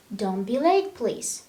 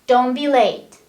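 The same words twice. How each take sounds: First: Polite request. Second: Loud, blunt command; rude order. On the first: Teacher contrasts a polite request with a rude order. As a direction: ask it kindly. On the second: Teacher contrasts a loud rude order with a polite one. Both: Shown as a demonstration. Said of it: "Let, let's see the difference".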